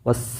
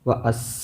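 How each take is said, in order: First: Wa runs straight into a doubled s sound. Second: Wa is followed by a separate 'as' syllable. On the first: The speaker calls it right. "ഷംസിയായ അക്ഷരത്തിൽപ്പെട്ടതാണ് സീന്" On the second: The speaker calls it wrong. "ഒരിക്കലും വ അസ്സ എന്ന് പറയില്ല"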